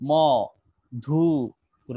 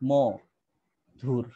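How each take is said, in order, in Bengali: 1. শব্দটি তিনটি আলাদা অংশে ভাঙা হয়েছে। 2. শব্দটি দুইটি আলাদা অংশে ভাঙা হয়েছে। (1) "আপনি কি বলেছেন মধুর? না" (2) "দুইটা উচ্চারণ হচ্ছে।"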